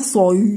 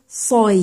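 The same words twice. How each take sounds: First: The glide after the emphatic consonant sounds heavy. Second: The glide after the emphatic consonant stays thin. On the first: The speaker calls it wrong. "On va pas dire soi" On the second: The speaker calls it right. "on va dire soi"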